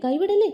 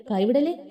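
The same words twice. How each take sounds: First: കൈവിടല്ലേ cried much higher and louder; urgent high plea. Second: Said in the usual way. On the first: Acted. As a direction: plead in sudden alarm, pitch jumping. Friend begging her to hold on. (ഉയർന്ന ശബ്ദത്തിൽ പരിഭ്രമിച്ച അപേക്ഷ)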